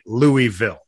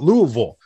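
First: Each syllable is said fully, as written. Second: The name is squeezed into a reduced form. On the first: This is how it is spelled. The speaker calls it right. "I've decided that I'm pronouncing it Louisville" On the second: This is how the locals say it. The speaker calls it wrong. "We pronounce it Louisville. ... That ain't how it's spelled"

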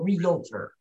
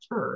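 First: The word is said with three syllables. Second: The word is said with two syllables. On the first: The speaker calls it wrong. "you don't want it to be three syllables" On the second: The speaker calls it right. "You want it to be two syllables"

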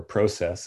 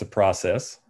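First: Process is said in a Canadian accent. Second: Process is said in an American accent.

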